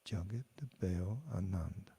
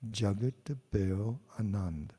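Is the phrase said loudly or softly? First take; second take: softly; loudly. First: The phrase is said softly and quietly. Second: The phrase is said at normal loudness. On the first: "then I'll say it softly" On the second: "I'll say a phrase"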